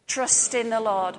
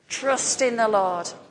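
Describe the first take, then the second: First: It is said with ordinary, lower energy. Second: It is said with more force and energy.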